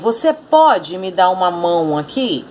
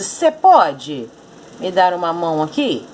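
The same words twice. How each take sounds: First: The first word is said in full, two syllables. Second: The first word is shortened to one syllable. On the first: This is the standard, full form. "Ele queria dizer" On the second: This is a relaxed, informal way of speaking. "na forma descontraída, na linguagem informal"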